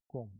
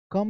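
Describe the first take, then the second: First: "कोम्ब" with an O, ending on M; silent B, O vowel. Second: "कम" with short uh, like come; wrong vowel. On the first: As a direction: say "कोम्ब" like kome, no B. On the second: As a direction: say "कम" higher, with an uh vowel. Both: Shown as a demonstration. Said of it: "कम नहीं".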